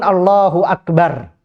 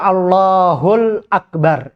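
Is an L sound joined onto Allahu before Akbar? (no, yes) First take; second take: no; yes. First: Allahu ends in a vowel before Akbar. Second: An L sound links Allahu to Akbar. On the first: The speaker calls it right. "ucapan yang wajib adalah Allahu Akbar" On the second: The speaker calls it wrong. "Tidak boleh dibaca Allahul Akbar"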